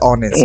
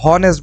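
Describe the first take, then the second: First: The word begins directly with a vowel sound. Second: The word begins with an audible h sound. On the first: The speaker calls it right. "এখানে শুদ্ধ হচ্ছে অনেস্ট।" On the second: The speaker calls it wrong. "হয়তো অনেকে হনেস্ট বলবে হ।"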